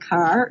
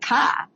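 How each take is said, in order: First: The final R sound is pronounced. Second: The final R sound is dropped. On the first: "It's not a car" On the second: "people in Jersey, they drop their R's, so it's a car"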